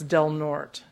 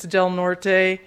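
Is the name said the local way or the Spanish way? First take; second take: local; Spanish. First: The name is given its local pronunciation. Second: The name is given its Spanish pronunciation. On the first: This is how the locals say it. The speaker calls it right. "Del Norte was settled by Portuguese people, so it's Del Norte" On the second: This is how a Spanish speaker would say it. The speaker calls it wrong. "If you're Spanish, it's Del Norte"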